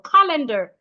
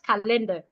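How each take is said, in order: First: The stress is on the first syllable. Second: The stress is on a later syllable. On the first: The speaker calls it right. "you're stressing the first syllable" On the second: The speaker calls it wrong. "not calendar"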